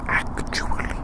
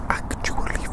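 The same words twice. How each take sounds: The two takes are said the same way.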